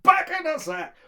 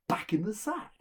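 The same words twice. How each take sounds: First: Loud, high desperate yell; shouted command. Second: Said in the usual way. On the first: Acted. Son orders the cudgel back, desperate shout. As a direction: shout it with all urgency. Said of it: "just shout".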